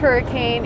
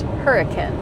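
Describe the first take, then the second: First: The name is said the outsider way. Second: The name is said the local way. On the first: The speaker is from out of state. The speaker calls it wrong. "It is not pronounced hurricane" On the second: The speaker is a true local. The speaker calls it right. "it is pronounced hurricane"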